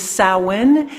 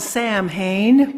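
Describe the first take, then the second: First: It is said in its traditional spoken form. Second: It is read the way it is written. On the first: "the pronunciation is Samhain" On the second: "spelled Samhain"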